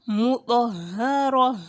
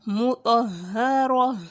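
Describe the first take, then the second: No difference in how they are said.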